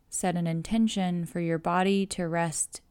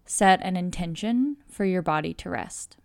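The two takes are said the same way.

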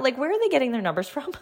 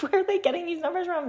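First: Said in the usual way. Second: High, laughing disbelief; incredulous. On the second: Real, not acted. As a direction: ask it in amused disbelief. Repeats the question, incredulous.

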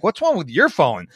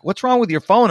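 First: Retold retort, leaning on "your"; stress on YOUR. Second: Mock-baffled question, pitched up; freaked-out guests. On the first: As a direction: throw the question back, punching "your". Retort turning the question back. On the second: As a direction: imitate puzzled guests, higher pitch. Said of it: "it really freaks people out".

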